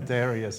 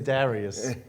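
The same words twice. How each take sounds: First: The first vowel is flat, Chicago-style. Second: The first vowel is not flattened. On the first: "with a Chicago accent, so he is a flat" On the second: "I say Darius"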